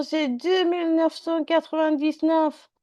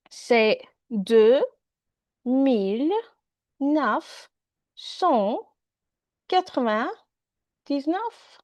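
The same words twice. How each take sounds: First: Said in the usual way. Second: Each number separated by pauses, slow; slowly, word by word. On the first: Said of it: "Non, monsieur". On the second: Shown as a demonstration. Donald saying his house number slowly to the policeman, word by word. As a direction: spell it out slowly for someone who barely understands. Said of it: "Parle slow, s'il te plaît".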